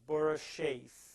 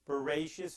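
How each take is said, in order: First: It is split into two parts, Bora and shes. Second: It is said as one whole word. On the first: He created six. "I just put a little bit of a different emphasis on the words" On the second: In the beginning. "is the real word"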